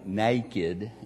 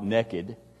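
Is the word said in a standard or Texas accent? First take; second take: standard; Texas. First: It is said in a standard accent. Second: It is said in a Texas accent.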